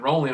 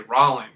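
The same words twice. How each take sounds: First: The first vowel is the usual 'oh' sound. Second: The first vowel sounds like 'aw' in [name]. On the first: "instead of saying rolling" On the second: "My last name is [name], so"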